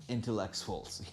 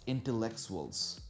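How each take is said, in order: Both takes have the same delivery.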